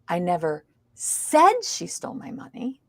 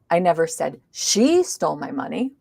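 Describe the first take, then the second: First: The stress is on the word said. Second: The stress is on the word I. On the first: It may have been implied, not said. "It means I didn't say it. I might have implied it" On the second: Someone else may have said it. "maybe somebody else did"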